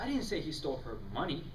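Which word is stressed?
money. The stress falls on the word money.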